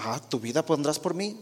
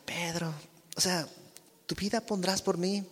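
First: Ironic, mocking question; a doubting, sarcastic "¿tu vida pondrás por mí?". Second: Softer, gentle question; a softer, loving "¿tu vida pondrás por mí?"; tender. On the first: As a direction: throw it back with a touch of sarcasm. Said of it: "no creo que haya respondido con ironía o sarcasmo". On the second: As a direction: ask him tenderly, almost hushed. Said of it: "Sino más bien con ternura". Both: Shown as a demonstration.

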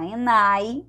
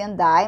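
First: "and I" as "en-nai", no D; "and I" linked through N only; D dropped. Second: "and I" with a clear D, "an-dai"; D pronounced. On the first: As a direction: drop the D in "and I". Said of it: "vocês podem falar and I também". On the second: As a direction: sound the D linking "and I". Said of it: "que ela canta and I". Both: Shown as a demonstration.

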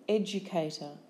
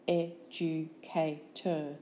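First: Said in the usual way. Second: Slow "Educator" as ed, u, ca, tor; syllable by syllable. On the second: Shown as a demonstration. Teacher giving syllables for spelling, Educator slowly in beats. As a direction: break Educator into four separate beats.

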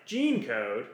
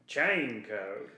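First: Said in the usual way. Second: Put-on "Chain code." in a light clone-trooper accent, the ch set apart from gene; imitating the clone accent. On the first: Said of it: "I'm like". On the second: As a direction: mimic the accent of Bradley Baker's voice work on "Chain code.". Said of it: "Bradley Baker's doing an accent for all these voices".

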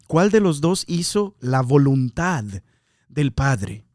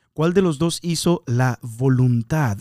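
First: Said in the usual way. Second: Slowed down, each word set apart; slow it down so the question sinks in; slow, weighed question. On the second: Shown as a demonstration. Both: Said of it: "En otras traducciones dice".

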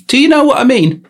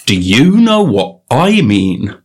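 First: Much higher and louder; high-pitched questioning. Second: "you" and "I" drawn out with swooping pitch; slow emphatic question. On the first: Riffing on the phrase, high-pitched questioning. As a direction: squeal the question, hammed-up. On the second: Riffing on the phrase, slow emphasis on "you" and "I". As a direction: lean hard and slowly on "you" and "I". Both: Pretend. Same question repeated in varied ways.

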